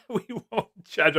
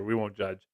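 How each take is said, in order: First: Lifted high, teasing read of the comment; a chat comment read out high and teasing; mock comment voice. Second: Said in the usual way. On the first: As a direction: read it back in a high, playful voice. Reading a viewer's comment aloud.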